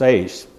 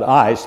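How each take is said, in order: First: The vowel sounds like the one in 'eight'. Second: The vowel sounds like the one in 'ice'. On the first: "but it's ace" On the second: "most people call that ice"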